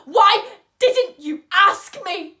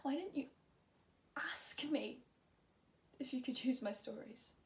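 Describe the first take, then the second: First: High, very loud, slow angry demand; furious shout. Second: Soft, halting question after the outburst; quiet, subdued. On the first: Patient demands to know why Vivi never asked, furious shout. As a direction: shout it out, hammering each word slowly. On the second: Patient asks Vivi about using the stories, quiet and subdued. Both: Acted.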